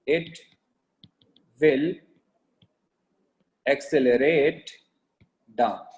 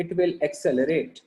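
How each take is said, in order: First: Word by word with long pauses; slow dictation. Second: Said in the usual way. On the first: Real, not acted. Teacher giving notes to class, slow dictation. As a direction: dictate slowly, leaving a gap after each word.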